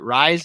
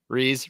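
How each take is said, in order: First: The vowel sounds like the one in 'eyes'. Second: The vowel sounds like the one in 'peace'. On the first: The speaker calls it wrong. "Is it Rise? Am I saying it right" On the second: The speaker calls it right. "No, it's Reese"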